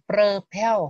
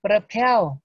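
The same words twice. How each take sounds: First: Propel slowed, stress on "PEL", first vowel reduced; careful slow repeat of propel; repeated slowly. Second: Propel said loud, the o as "ơ", stress on "PEL"; teacher demo of propel, stress on PEL; unstressed o. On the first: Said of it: "cũng đọc thành chữ ơ này". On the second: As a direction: model propel loudly, reduce the o to a schwa. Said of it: "chữ o ở đây mà không có nhận dấu nhận á". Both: Shown as a demonstration.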